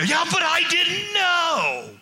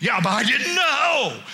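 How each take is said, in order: First: Mock the excuse full force; hammed-up whining shout; exasperated shout. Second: Whiny excuse. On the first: Excuse repeated louder. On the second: Retold or imitated. Members excuse, first take.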